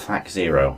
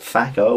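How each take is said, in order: First: The final part is said as 'zero'. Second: The final part is said as 'oh'. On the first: "or Thac Zero?" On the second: "do you pronounce it Thaco"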